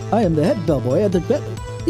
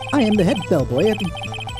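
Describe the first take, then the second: First: The voice is pitched lower. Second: The voice is pitched fairly high.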